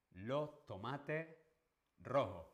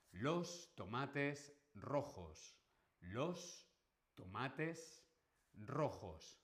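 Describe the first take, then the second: First: Andalusian demo, final S dropped from each word; Andalusian accent. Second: Every final S sounded in "Los tomates rojos", slow and careful; standard Spanish pronunciation. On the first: Teacher imitating Andalusians for students, Andalusian dropped final S. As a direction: say it slowly as in Andalusian, word endings left open without S. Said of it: "en andaluz no se pronuncia la S final".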